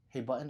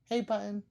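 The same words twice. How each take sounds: First: It is said in his own normal voice. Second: It is said imitating his wife's voice.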